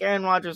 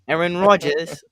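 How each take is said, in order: First: The name is said in a plain accent. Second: The name is said in a London accent.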